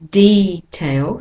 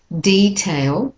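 First: The stress is on the first syllable. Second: The same.

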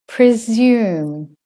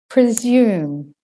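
Both takes have the same delivery.

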